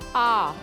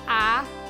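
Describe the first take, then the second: First: The vowel is open tall and vertical. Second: The vowel is spread wide and flat. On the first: The speaker calls it right. "it was more ah" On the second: The speaker calls it wrong. "we didn't go sharpens"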